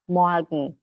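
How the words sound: The R is softened into a light a sound. This is how it is said in Germany. "É um leve som de A"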